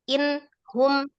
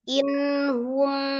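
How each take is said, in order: First: There is a break after the n sound. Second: The n flows briefly into hum without a break. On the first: The speaker calls it wrong. "contoh dijedah itu misalnya inhum ya, bacanya in hum" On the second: The speaker calls it right. "bacanya cukup in hum, tapi tidak terputus"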